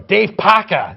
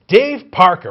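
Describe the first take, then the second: First: It is said in a New England accent. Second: It is said in a standard, non-regional accent.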